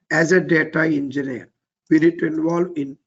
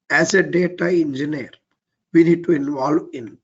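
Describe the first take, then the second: No difference in how they are said.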